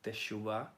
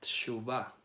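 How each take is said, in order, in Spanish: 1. La vocal después de la primera T es llena. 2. La vocal después de la primera T es muy corta. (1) "Algunos pronuncian y se puede pronunciar teshuvah" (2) "esa E de la T es muy corta"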